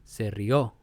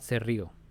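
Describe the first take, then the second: First: The stress falls on the last syllable of rió. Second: The stress falls on the first syllable of rió. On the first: The speaker calls it right. "you have to accentuate the last syllable" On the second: The speaker calls it wrong. "It's not se rió"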